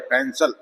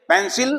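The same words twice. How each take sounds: First: पेंसिल with a schwa, pen-suhl; correct pronunciation. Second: पेंसिल said high with a full i; the wrong version, पेंसिल with clear i; wrong pronunciation. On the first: Teacher gives the right पेंसिल, low and soft. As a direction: say पेंसिल low with a reduced last syllable. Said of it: "अ की आवाज है". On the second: Teacher mocks the wrong version, पेंसिल with full i. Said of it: "पेंसिल नहीं है ये". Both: Shown as a demonstration.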